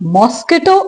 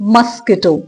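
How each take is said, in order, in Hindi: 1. पहले अक्षर में पूरा 'o' स्वर है। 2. पहले अक्षर में छोटा 'uh' स्वर है। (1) "it's not मॉस्किटो" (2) "it's मस्किटो"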